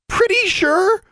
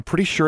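First: Very high, loud, incredulous sputter. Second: Said in the usual way. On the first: A narrator's reading. Roommate throws the girl's reassurance back, sputtering. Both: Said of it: "Anna sputtered".

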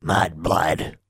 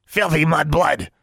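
First: Lightly growled creature insult; sluggish growl. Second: High, slow creature jeer; louder creature insult. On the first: Creature insults a girl in her hands, sluggish growl. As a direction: growl it sluggishly, without much force. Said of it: "growled Honey sluggishly". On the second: Creature jeers at the girl carrying it, getting louder. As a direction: spit the insult in a high beastly voice. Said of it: "Honey's voice was getting louder". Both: A narrator's reading.

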